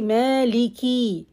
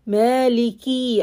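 First: The final vowel is long. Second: The final vowel is short. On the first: The speaker calls it wrong. "And don't say Maliki" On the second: The speaker calls it right. "I don't have ya. I have just kasra"

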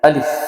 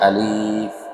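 First: The word is said quickly and crisply. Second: The word is said slowly and drawn out. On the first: The speaker calls it right. "আমরা দ্রুত বলবো" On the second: The speaker calls it wrong. "আমরা কেউ এভাবে বলবো না"

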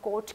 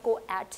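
First: Only one vowel sound, o, is said. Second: Two vowel sounds are said, o then e. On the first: The speaker calls it right. "इसको हम कोट कहते हैं" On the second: The speaker calls it wrong. "इस word को हम कोएट नहीं कहते"

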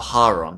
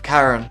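First: The name is said in a Greek-style pronunciation. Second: The name is said in an American-style pronunciation. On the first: "in Greek, it's the Hand of Charon" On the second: "in America, I think it's the Hand of Charon"

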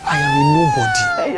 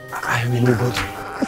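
First: It is said loudly. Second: It is said at a normal, quieter volume.

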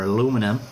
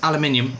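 First: It is said in an American accent. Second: It is said in a British accent.

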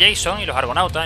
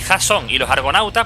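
First: Jason is pronounced the English way. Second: Jason is pronounced the Spanish way. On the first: "yo digo Jason y los Argonautas en inglés" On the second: "en vez de decir"

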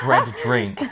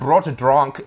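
First: The vowels sound English, like bread drink. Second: The vowels sound German, like brot drunk. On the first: The speaker calls it right. "It's pronounced bread drink" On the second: The speaker calls it wrong. "that's not how you pronounce it"

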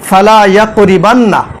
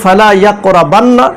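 First: The vowel after the r is an 'i'. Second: The vowel after the r is an 'a'. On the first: This is how someone else read it. The speaker calls it wrong. "আর সে পড়েছে" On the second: This is the wording of the hadith. The speaker calls it right. "হাদিসের শব্দ হচ্ছে"

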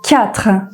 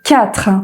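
Both takes have the same delivery.

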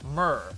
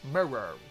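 First: The word is squeezed into one syllable. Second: The word is said with two syllables. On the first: "See, watch my mouth doesn't move" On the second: "if I move my mouth, mirror. Mirror. Then becomes two syllables"

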